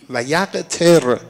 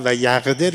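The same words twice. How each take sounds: First: «و یقتر» drawn out slowly, with a hard t in place of d; slow, stressed t sound. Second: Said in the usual way. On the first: Shown as a demonstration. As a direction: lean on the t of «یقتر», slowly and a little louder.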